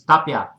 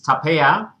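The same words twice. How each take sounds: First: The name is said with a Spanish pronunciation. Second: The name is said with an English pronunciation. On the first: "in Spanish it's Tapia" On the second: "English it's Tapia"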